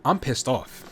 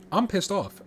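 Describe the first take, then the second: First: Said in the usual way. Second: Annoyed outburst. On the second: Real, not acted.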